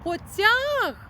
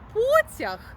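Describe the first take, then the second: First: The stress is on the second syllable. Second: The stress is on the first syllable. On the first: It is a verb form meaning went off somewhere. "то це означає дієслово" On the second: It means a train. "то це поїзд"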